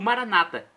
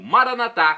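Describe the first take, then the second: First: The stress is on the second-to-last syllable. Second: The stress is on the last syllable. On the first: This is how evangelicals say it. "que colocam a tônica na penúltima sílaba" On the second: This is how Catholics say it. "com a tônica na última sílaba"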